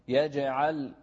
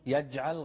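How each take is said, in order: First: The jeem is released with an echoing bounce. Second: The jeem is held without an echoing bounce. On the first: The speaker calls it right. "يج في قلقلة هنا" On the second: The speaker calls it wrong. "يجعل غلط"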